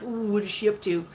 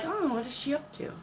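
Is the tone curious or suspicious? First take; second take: suspicious; curious. First: It sounds suspicious and ill-intentioned. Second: It sounds lightly curious and harmless. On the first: The watcher means harm. "Not in a malicious way. Not because they're like" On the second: The watcher is just curious. "But kind of like"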